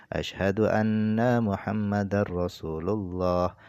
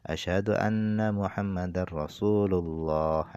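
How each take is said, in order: Both takes have the same delivery.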